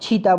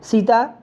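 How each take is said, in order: First: The word begins with a ch sound. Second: The word begins with an s sound. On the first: This is the Chhattisgarhi form. "सीता को छीता बोलेंगे" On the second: This is the standard Hindi form. "सीता को छीता बोलेंगे"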